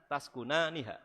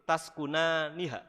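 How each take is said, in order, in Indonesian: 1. Suku kata 'nu' diucapkan sekali. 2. Suku kata 'nu' diucapkan sekali.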